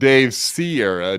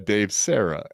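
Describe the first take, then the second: First: The surname is said like Sierra, three syllables. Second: The surname is said like Sarah, two syllables. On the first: The speaker calls it wrong. "not Dave Sierra" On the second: The speaker calls it right. "Dave Sarah, as it were"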